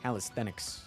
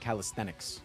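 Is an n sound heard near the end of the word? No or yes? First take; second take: yes; yes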